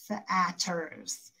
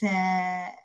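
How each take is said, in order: First: Short a vowel and a plain t sound. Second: Eh vowel and a plain t sound. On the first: A child is decoding letter by letter. "sound it out letter by letter" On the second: A child tries a different vowel sound. "E A can make the eh sound"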